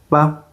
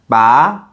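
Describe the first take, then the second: First: It is said softly and lightly, without contour. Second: The pitch rises toward the end. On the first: "normally soft and light" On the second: "that's the second tone"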